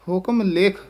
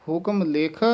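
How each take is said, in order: The two takes are said the same way.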